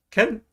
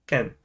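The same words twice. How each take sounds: First: "Ken" pitched high as a question; one-word Singlish query, "Ken" going up. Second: One-word Singlish reply, "Ken" going down; Singlish answer. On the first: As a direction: ask "Ken?" with a high lift. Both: Shown as a demonstration. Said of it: "Singlish is complete with one word".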